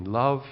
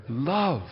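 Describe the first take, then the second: First: Said in the usual way. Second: Love said with weight, falling; Love set apart and emphasized; stress on Love. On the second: Shown as a demonstration. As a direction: lean on the word Love. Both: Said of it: "let's put the emphasis there".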